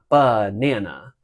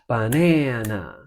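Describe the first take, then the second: First: The first syllable is stressed. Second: The first syllable is an unstressed pickup. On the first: The speaker calls it wrong. "It's not banana" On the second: The speaker calls it right. "The ba of banana is like a pickup into that word"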